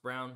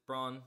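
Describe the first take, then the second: First: Braun said as "brown"; player's own pronunciation. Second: Braun said as "brawn"; spelling pronunciation. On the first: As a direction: say Brown with an "ow" vowel. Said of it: "it's pronounced Brown". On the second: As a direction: say Braun with an "aw" vowel, as spelt. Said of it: "he doesn't pronounce it Braun". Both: Shown as a demonstration.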